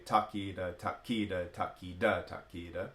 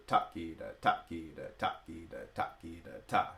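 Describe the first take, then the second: First: Takida with the beat stressed, flat grouping; wrong accent on the beat. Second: Takida with ta punched, kida falling away; accent the first ta. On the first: Teacher showing students the wrong way, takida accented on the beat. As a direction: say takida evenly, beats accented. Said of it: "you don't accent the beats". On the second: Teacher showing students the right accent, ta of takida punched. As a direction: hit the ta of each takida. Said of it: "accent the first matra of each tishra grouping". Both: Shown as a demonstration.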